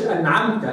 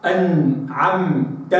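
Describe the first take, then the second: First: أنعمت with the noon pushed out too hard; common izhar. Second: Very slow أنعمت with the noon light and exact; refined izhar. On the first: Teacher imitating the common clear noon. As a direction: overdo the noon in أنعمت like a layman. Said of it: "هذا إظهار العوام". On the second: Teacher modelling the refined clear noon. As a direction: draw out أنعمت, noon clear but not forced. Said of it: "وإنما إظهار الخواص". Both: Shown as a demonstration.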